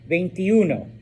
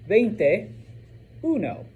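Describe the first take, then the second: First: The parts are run together quickly. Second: The two parts are said separately.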